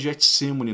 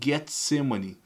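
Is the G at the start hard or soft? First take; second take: soft; hard. First: The G at the start is soft. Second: The G at the start is hard. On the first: The speaker calls it wrong. "não se fala Getsemane no grego" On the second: The speaker calls it right. "Se fala Getsemane"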